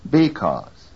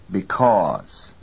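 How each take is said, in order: First: BECAUSE wrongly stressed on BE; stress moved to first syllable. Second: BECAUSE stressed on CAUSE; stress on second syllable. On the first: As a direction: hit a full BE, weaken CAUSE in BECAUSE. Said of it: "from the second to the first". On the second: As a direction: keep BE weak and hit CAUSE in BECAUSE. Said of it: "second syllable is louder". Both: Shown as a demonstration.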